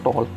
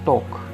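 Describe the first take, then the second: First: The L sound is pronounced in the word. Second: The L sound is left out of the word. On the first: The speaker calls it wrong. "It's not टॉक" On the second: The speaker calls it right. "It's टॉक"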